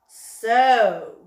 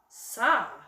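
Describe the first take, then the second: First: The vowel is a long 'oh' sound. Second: The vowel is a short 'ah' sound. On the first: The speaker calls it right. "we're going to say its long name, O" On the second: The speaker calls it wrong. "S ah"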